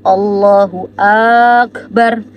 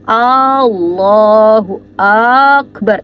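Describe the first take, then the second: First: The a in akbar is drawn out long. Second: The a in Allah is drawn out long. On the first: "Atau bagian di akbarnya" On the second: "Allahnya itu dipanjangin"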